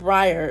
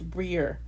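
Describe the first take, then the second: First: The vowel sounds like 'eye' before the r. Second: The vowel sounds like 'ee' before the r. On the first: The speaker calls it wrong. "It's not Breyer" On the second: The speaker calls it right. "That's how you say it"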